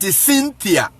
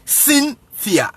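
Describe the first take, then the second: First: Said in the usual way. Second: "Cynthia" split high as sin, pause, thia; demonstrated S sound. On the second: Shown as a demonstration. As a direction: teach "Cynthia" in two raised, separate beats. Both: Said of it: "you pronounce it as S".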